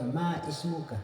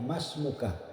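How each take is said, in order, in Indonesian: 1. Huruf 'i' pada ismuka diucapkan terpisah. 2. Huruf 'i' dihilangkan dan kedua kata menyatu. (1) "tidak boleh dibaca ma ismuka, siapa namamu, itu salah" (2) "Cukup ditanya masmuka"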